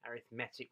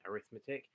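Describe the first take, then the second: First: The stress falls on the 'met' syllable. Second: The stress falls away from the 'met' syllable. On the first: "with a stress on the met" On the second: "rather than"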